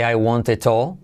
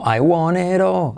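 First: The t between vowels is a hard t. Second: The t between vowels is a soft r. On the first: The speaker calls it wrong. "No se dice I want it all" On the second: The speaker calls it right. "sino I want it all"

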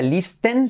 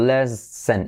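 First: The first vowel is a tense 'ee' sound. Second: The first vowel sounds close to 'eh'. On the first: The speaker calls it wrong. "No sería listen" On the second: The speaker calls it right. "letra clave I como E"

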